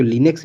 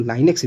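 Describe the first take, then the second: First: "Linux" said as "li-neks" with a short i; Linux, first way. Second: "Linux" said as "lai-neks" with a long ai; Linux, second way. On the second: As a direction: say "Linux" as "laineks", opening on ai. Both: Shown as a demonstration. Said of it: "Linux या Linux".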